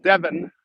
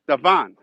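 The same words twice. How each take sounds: First: Devon said the English way, DEV-un; English pronunciation. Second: Devon said the Chicago way, duh-VON; Chicago pronunciation. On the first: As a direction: stress the first syllable of Devon, short e. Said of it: "as they say in England". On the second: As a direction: stress the second syllable of Devon. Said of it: "and we pronounce it". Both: Shown as a demonstration.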